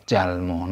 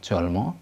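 First: "jalmo" said "jahl-maw", first vowel open ah; "jalmo" with ah before the l. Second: "jolmo" said "jawl-maw", first vowel rounded o; "jolmo" with o before the l; wrong O vowel. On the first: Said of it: "penultimate syllable with al doesn't follow". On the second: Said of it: "not jolmo". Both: Shown as a demonstration.

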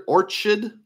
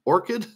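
First: Orchid with a CH as in church; ch pronunciation. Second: Orchid with a hard K sound; k pronunciation. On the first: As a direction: say "Orchid" as OR-chid, questioning. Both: Real, not acted. Trying out pronunciations of unfamiliar name.

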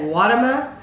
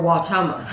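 First: Watama with a short, unstressed middle vowel; pronounced WAH-tuh-muh. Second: Watama with a long O in the middle; pronounced wah-TOH-muh. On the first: Host asks partner to choose a pronunciation, WAH-tuh-muh. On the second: Host asks partner to choose a pronunciation, wah-TOH-muh. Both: Shown as a demonstration. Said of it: "Would you say Watama or Watama?".

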